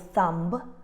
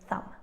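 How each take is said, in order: First: The B sound is pronounced after the M. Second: The B sound is silent after the M. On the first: The speaker calls it wrong. "we don't say things like ... thumb" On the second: The speaker calls it right. "We say ... thumb"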